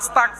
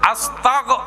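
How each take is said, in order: First: The word ends with a voiceless k sound. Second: The word ends with a voiced g sound. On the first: The speaker calls it wrong. "আস্তাক ক, অবাজি ক মানি শেষ" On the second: The speaker calls it right. "আস্তাগ গ"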